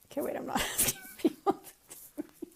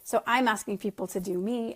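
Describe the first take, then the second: First: Real laughter breaking the words up, voice jumping much higher; laughing at herself. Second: Said in the usual way. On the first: Real, not acted. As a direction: catch the slip and crack up mid-sentence. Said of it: "I'm just laughing at some comments".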